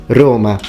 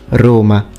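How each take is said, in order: The two takes are said the same way.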